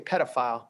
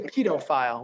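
First: It is said the North American way. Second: It is said the British way. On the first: "We say pedophile" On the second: "You say pedophile"

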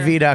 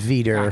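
First: It is said in a Boston accent. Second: It is said in a standard accent. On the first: "I say Veta because I'm from Boston" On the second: "but it's Veter"

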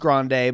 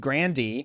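First: The name is said in the original Italian way. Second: The name is said in an Americanized way. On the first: The name keeps its Italian heritage. "originally it was Grande" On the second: The name was adapted to sound American. "we Americanized it. To be more American"

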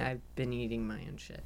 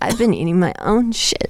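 First: It is said at normal, quieter volume. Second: It is said louder, with more force.

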